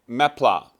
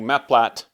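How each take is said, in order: First: It is pronounced the French way, unlike its spelling. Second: It is pronounced the English way it is spelled. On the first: The speaker calls it right. "that's how it's actually pronounced. It's a French word" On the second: The speaker calls it wrong. "that's how it's spelled"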